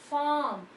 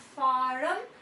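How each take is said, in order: First: The R sound is silent after the vowel. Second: The R sound is pronounced after the vowel. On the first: The speaker calls it right. "It is farm" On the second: The speaker calls it wrong. "not farm"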